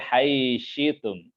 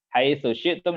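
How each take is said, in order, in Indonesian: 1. Vokal akhir hilang dan konsonannya menyatu. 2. Vokal akhir tetap dipertahankan dan kata tetap terpisah.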